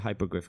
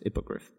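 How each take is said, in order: First: The first syllable has a long 'high' vowel. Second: The first syllable has a short 'hip' vowel. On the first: The speaker calls it wrong. "you don't say hypogriff" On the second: The speaker calls it right. "because there's an I, so it's hippogriff"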